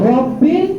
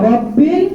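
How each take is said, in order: The two takes are said the same way.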